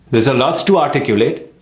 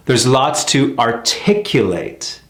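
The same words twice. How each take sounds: First: "There's a lots to articulate" with stress on "to", rising; wrong sentence rhythm. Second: "There's lots to articulate" slow, falling at the end; slow and settled, drop at the end; slow natural rhythm. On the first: Teacher showing an unnatural sentence rhythm. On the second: Teacher modelling the American rhythm of the sentence. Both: Shown as a demonstration.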